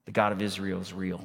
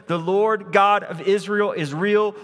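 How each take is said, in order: First: "the God of Israel is real" said softly and fast; quiet restatement. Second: "the Lord God of Israel is real" called out louder, God stressed; louder exclaimed. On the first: Shown as a demonstration. Preacher softly restating the mother's realization. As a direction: murmur "God" as a calm summary. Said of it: "In other words". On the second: Acted. Mother proclaiming to Elijah, louder excited "God". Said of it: "she sees".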